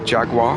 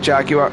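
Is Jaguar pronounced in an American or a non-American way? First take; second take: American; non-American. First: The word is said in an American way. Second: The word is said in a non-American way. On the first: "As for some parts of America, that would be Jaguar" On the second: "I will pronounce it the way I'm used to"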